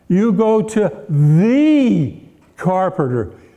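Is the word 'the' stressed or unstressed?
stressed. The word 'the' is stressed and drawn out. This is the one best carpenter.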